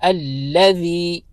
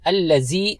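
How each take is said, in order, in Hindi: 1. बीच का व्यंजन नरम 'थ' की आवाज़ है। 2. बीच का व्यंजन गूंजती हुई 'ज़' की आवाज़ है। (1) "नरमी के साथ" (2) "जेड की आवाज नहीं देनी। अल्लज़ी नहीं पढ़ना"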